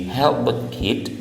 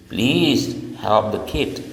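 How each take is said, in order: First: Said in the usual way. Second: Slow polite request. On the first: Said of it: "dari help the kid". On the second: Shown as a demonstration. Teacher demonstrating a polite request. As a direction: ask politely, drawing it out.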